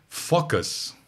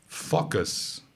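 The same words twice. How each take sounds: No difference in how they are said.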